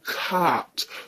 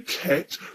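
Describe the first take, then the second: First: The vowel is a long 'ah' sound. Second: The vowel is a short flat 'a' sound. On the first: "or cart" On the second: "don't say cat, because that's the original word"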